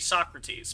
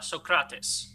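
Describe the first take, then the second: First: The name is said with English pronunciation. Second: The name is said with ancient Greek pronunciation. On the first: This is the usual English way of saying it. "In English, you would say Socrates" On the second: This is the original way of saying it. "But in reality, it's actually more uh, Socrates"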